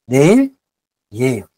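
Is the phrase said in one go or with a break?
with break. The phrase has a short break after the first word. The speaker calls it right. "発音しやすいので"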